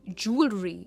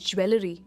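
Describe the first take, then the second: First: It begins with 'joo' and has 'al' inside. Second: It begins with 'jwe' and has 'el' inside. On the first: The speaker calls it right. "पर stress जू पर है और एन और बीच में हम अल कहते हैं" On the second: The speaker calls it wrong. "Not ज्वेलरी"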